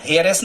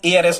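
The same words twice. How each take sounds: First: हेयरएस said with a sounded h, hair-ess; the wrong reading हेयरएस, h clearly sounded; wrong pronunciation with h. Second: एआरएस with the h dropped, air-ess; the correct reading एआरएस, no h; silent h. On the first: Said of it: "हेयरएस नहीं पढ़ते". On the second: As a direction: say एआरएस the right way, starting on the vowel. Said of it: "इसको हम एआरएस पढ़ते हैं". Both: Shown as a demonstration.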